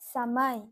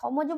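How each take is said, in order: First: The final consonant sounds like y. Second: The final consonant sounds like j. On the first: The speaker calls it right. "বলবো সময়" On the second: The speaker calls it wrong. "নিশ্চয়ই না"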